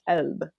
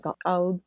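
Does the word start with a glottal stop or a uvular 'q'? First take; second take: glottal stop; uvular q. First: The word starts with a glottal stop instead. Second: The word starts with a deep uvular 'q' sound. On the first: This is the Egyptian dialect form. "they drop the qaf and it becomes a glottal stop" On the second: This is the standard formal form. "in modern standard Arabic, yeah, you'd start with the qaf"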